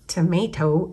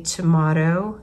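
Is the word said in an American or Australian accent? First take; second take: American; Australian. First: It is said with an American accent. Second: It is said with an Australian accent.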